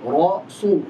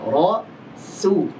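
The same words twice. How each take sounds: First: The lips round first, making the s thick. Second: The s starts at the tongue, staying thin. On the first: The speaker calls it wrong. "jangan monyong dulu baru diucapkan su. Nanti jadi tebal seperti shad" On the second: The speaker calls it right. "Yang betul adalah startnya dari makhrajnya"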